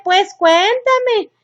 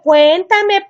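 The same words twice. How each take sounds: First: Higher, very slow whiny begging; a mock-whiny mom dragging out her request; drawn-out plea. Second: Pleading parent. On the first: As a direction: stretch the plea out like a needy parent. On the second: Retold or imitated. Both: Parent begging teen to talk.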